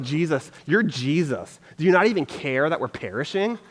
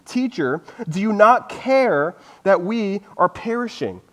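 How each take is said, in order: First: A mildly snide, passive aggressive jab; understated passive aggressive complaint to Jesus. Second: Said in the usual way. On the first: Retold or imitated. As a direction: needle him with a touch of sarcasm. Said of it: "like, passive aggressive". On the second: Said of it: "and said to him".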